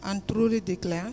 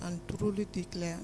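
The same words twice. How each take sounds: First: A little louder than before, still soft; repeated slightly louder; speaking up. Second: Barely audible oath; soft, hard to hear; too quiet. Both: Real, not acted. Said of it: "Can you speak louder".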